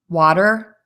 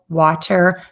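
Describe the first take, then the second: First: The middle consonant sounds like a quick D. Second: The middle consonant is a clear T. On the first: "we're going to hear the D sound" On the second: "if you say these words with a T"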